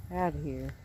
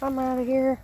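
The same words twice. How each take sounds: First: Lower, softer muttered echo; low mumbled repeat. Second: Higher, louder little turtle voice. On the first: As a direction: repeat it under your breath, low. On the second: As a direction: play the turtle bolting off. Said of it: "He says". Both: Pretend.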